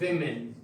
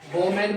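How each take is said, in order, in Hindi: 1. पहला अक्षर 'wi' जैसा सुनाई देता है। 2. पहला अक्षर 'wo' जैसा सुनाई देता है। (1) "ये शब्द W O M E N विमेन बोला जाता है।" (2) "वोमेन बोलते हैं, गलत है।"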